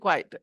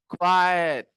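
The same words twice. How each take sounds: First: The word is said short and quick. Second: The word is drawn out slowly. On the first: The speaker calls it wrong. "Don't say quickly" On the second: The speaker calls it right. "Long sound. Not very quickly"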